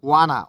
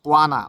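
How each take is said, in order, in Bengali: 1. দুটি শব্দ মিশে একটি সংক্ষিপ্ত শব্দ হয়ে যায়। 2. দুটি শব্দ মিশে একটি সংক্ষিপ্ত শব্দ হয়ে যায়।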